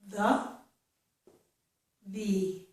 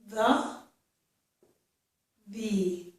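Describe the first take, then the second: The two takes are said the same way.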